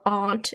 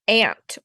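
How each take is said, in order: First: It is said in a New England accent. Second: It is said in a General American accent.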